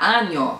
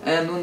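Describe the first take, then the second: First: The middle consonant is a palatal 'ny' sound. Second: The middle consonant is a plain 'n' sound. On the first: The speaker calls it right. "que tem som de NH, como nosso NH" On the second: The speaker calls it wrong. "Ano não, gente"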